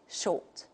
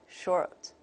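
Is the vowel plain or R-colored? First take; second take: plain; R-colored. First: The vowel is plain, with no R sound. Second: The vowel is colored by an R sound. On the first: "the British model, it's the vowels pronounced in a plain way" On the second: "the American model would take a different one"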